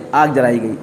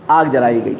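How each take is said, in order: Both takes have the same delivery.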